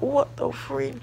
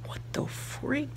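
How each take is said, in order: First: High startled exclamation; mock-startled freak-out; shocked. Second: Slow, high whispered disbelief; hushed what-the-freak; whispered shock. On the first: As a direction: blurt it out in disbelief. Shocked reaction in story. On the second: Retold or imitated. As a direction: breathe it out, stunned. Repeated reaction, now whispered.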